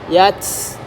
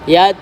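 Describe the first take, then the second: First: The final t ends in a strong hiss. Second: The final t has only slight breath. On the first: The speaker calls it wrong. "Tidak boleh terlalu berdesis" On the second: The speaker calls it right. "Sedikit saja"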